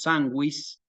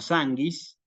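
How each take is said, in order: First: The u after the g is pronounced. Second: The u after the g is silent. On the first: The speaker calls it right. "la U se pronuncia y decimos sanguis" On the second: The speaker calls it wrong. "no sanguis"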